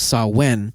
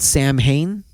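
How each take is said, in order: First: The name does not sound like 'Sam Hain'. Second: The name sounds like 'Sam Hain'. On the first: The speaker calls it right. "one of the original names was Samhain" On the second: The speaker calls it wrong. "just mispronounced, called Sam Hain"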